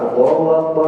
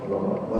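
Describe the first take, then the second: First: It is called out in a loud voice. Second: It is said in a quiet, low voice. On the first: The prayer is held with a congregation. "kalau sholatnya di jamaah, suaranya keras" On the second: The prayer is done alone at home. "Jangan kenceng-kenceng"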